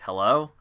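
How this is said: It is said with a questioning rise.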